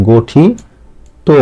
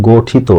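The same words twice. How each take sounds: First: গঠিত stretched out very slowly, ending on ত; slow careful demo. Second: গঠিত with its last syllable said like তো; wrong তো ending. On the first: Teacher spells out গঠিত slowly for students. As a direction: draw out গঠিত syllable by syllable, very slowly. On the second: Teacher shows students the common wrong তো ending. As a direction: end গঠিত on a rounded তো. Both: Shown as a demonstration. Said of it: "তয় করে তোর মতো উচ্চারণ করছি".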